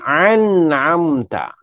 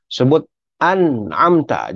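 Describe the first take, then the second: First: An'amta with the nun bounced, slightly higher; wrong bounced nun. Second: An'amta with the nun closed, slow; correct recitation. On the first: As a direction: show the mistake in an'amta. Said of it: "jangan an'amta". (an'amta nun dilantunkan, salah) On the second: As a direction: model an'amta, nun unbounced. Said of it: "Sebut an'amta, jangan". (sebut an'amta yang betul) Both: Shown as a demonstration.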